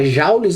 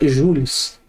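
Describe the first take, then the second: First: The first vowel sounds like 'ow'. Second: The first vowel sounds like 'oo'. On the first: This is the common everyday pronunciation. The speaker calls it wrong. "apesar da gente comumente falar Jaules" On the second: This follows the French origin of the surname. The speaker calls it right. "a pronúncia correta é Jules"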